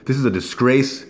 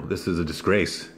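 First: Higher and louder, outraged; indignant outburst. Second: Said in the usual way. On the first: Real, not acted. Condemning Kool-Aid to viewers, loud and outraged. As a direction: repeat it as an outraged exclamation.

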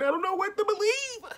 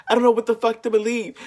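First: Pitched way up, a helpless whine; high, exasperated whine; high whiny. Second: Faster and louder, fed up; louder, quick frustrated repeat; louder exasperated. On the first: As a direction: squeak it out in disbelief. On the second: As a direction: blurt it out annoyed. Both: Real, not acted.

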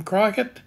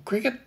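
First: Cricut said "CRY-cut", long i; alternative pronunciation. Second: Cricut said like "cricket", short i; alternative pronunciation. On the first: Offering viewers one way to say the brand, Cricut as "CRY-cut". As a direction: say Cricut with a first syllable like "cry". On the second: Offering viewers the other way to say the brand, Cricut as "cricket". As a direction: say Cricut just like the word cricket. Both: Shown as a demonstration. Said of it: "whichever way you like to pronounce that".

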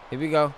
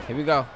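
The two takes are said the same way.

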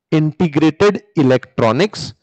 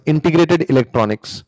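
First: "integrated electronics" slowly, each word set apart; slow emphatic repeat. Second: Said in the usual way. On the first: Shown as a demonstration. Teacher repeats the name's origin, "integrated electronics" slow and emphatic.

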